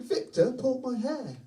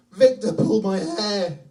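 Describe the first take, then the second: First: Put-on crying child. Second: Loud, high, drawn-out imitation wail; hammed-up tearful child complaint; crying child. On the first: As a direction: repeat it as an upset child, without shouting. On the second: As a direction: wail like a hurt little boy. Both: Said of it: "He's crying".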